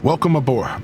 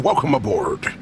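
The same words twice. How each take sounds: First: It is said in his normal voice. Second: It is said in Captain's pirate-like voice.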